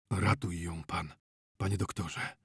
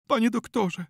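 First: Husky, subdued entreaty; hoarse voice. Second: High, anguished wail of appeal; plaintive cry, pitched very high; moaned plea. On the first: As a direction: beg hoarsely, almost without voice. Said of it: "ochrypłym głosem odezwał się znachor". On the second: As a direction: moan it as a distraught mother. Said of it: "jęknęła pani Czyńska". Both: A narrator's reading.

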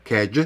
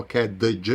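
First: "кедж" as one syllable, kej, ending in a single j sound; correct silent d. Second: "кедж" with a separate d before the j sound; mispronounced "кедж", the silent d voiced on its own; wrong d sounded. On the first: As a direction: say "кедж" with no separate d. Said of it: "тут вимовляється G". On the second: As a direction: say "кедж" as ked-uh-juh, splitting d from j. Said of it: "ми не говоримо". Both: Shown as a demonstration.

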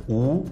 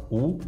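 First: Long "أو" vowel; ضمة طويلة. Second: Short "أو" vowel; ضمة قصيرة. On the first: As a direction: hold "أو" as a drawn-out oo. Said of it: "والضمة الطويلة ... شبه اللي فيها مد بالواو". (مد "أو" بالواو) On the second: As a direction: say "أو" as a brief u, not held. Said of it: "الضمة القصيرة". (حركة "أو" مضمومة وقصيرة) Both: Shown as a demonstration.

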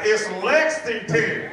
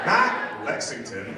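First: Lexington drawn out slowly and higher, each syllable clear; mock-instructing LEX-ING-TON, stretched out; regular pronunciation. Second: Mimicked country drawl on Lexington, slowly; mock a horse-country accent on Lexington; slow, exaggerated country Lexington; extra country accent. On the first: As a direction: say Lexington in full, slow and careful. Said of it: "then you said it in the regular". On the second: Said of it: "in your extra country, I wrote a horse here accent".

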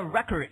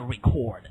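First: Record as the noun, RECK-ord; first-syllable stress. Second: Record as the verb, ree-CORD; second-syllable stress. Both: Shown as a demonstration. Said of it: "一个念record".

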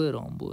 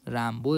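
First: "رامبو" said ROM-bo, rounded back a; Rambo with back a. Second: "رامبو" said RAM-bo, flat front a; Rambo with front a. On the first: Gamer trying out the skin's name, "رامبو" as ROM-bo. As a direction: say "رامبو" with a long aw-like first vowel. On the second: Gamer trying out the skin's name, "رامبو" as RAM-bo. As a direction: say "رامبو" with the a of "cat". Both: Shown as a demonstration.

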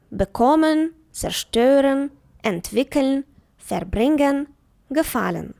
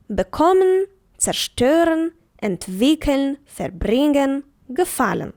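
First: Bekommen, zerstören, entwickeln, verbringen, gefallen with the prefix unstressed and the stem syllable stressed; teacher showing stem stress; stress after the prefix. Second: Bekommen, zerstören, entwickeln, verbringen, gefallen with the prefix unstressed and the stem syllable stressed; teacher repeating stem-stress examples; stress after the prefix. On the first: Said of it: "звернули увагу на наголос". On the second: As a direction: read each word slowly and clearly, prefix light, stress on the stem. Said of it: "наголос на себе взяти не може".

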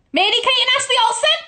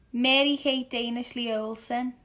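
First: Very fast, high shriek; loud squealed eureka; excited realisation. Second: Said in the usual way. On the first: Real, not acted. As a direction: scream out the answer as it dawns. Suddenly gets the answer.

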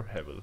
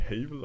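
First: Hebel said HAV-el, with a short first vowel. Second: Hebel said HAY-bel, with a long first vowel. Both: Shown as a demonstration. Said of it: "both is acceptable".

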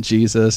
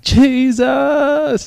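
First: Said in the usual way. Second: High, loud, long-held cry; re-enacted scream, stretched out high; retold scream. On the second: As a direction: cry out the name to the heavens. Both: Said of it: "I'm screaming".

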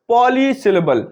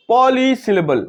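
Both takes have the same delivery.

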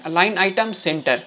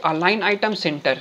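First: Align item center stretched out word by word; very slow dictation. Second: A bit slowed dictation; dictating. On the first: Teacher repeating the code very slowly for students. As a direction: say each word slowly for typing along. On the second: Teacher telling students what to type, slowed. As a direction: read the code out steadily. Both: Shown as a demonstration. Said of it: "यहाँ पे लिखिए".

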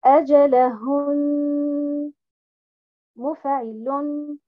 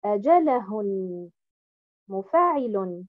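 First: أجلهن with the correct stress pattern; أجلهن read with correct stress, louder. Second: أجلهن with the wrong stress, lower; أجلهن read with misplaced stress. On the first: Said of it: "Donc, je vais dire". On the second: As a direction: contrast it: أجلهن with the incorrect stress. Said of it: "et non pas". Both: Shown as a demonstration.

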